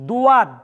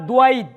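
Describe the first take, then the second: First: A w-glide follows the first consonant. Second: A w-glide and an i-glide follow the consonant. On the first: "ভুল উচ্চারণ" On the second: "ভুল উচ্চারণ"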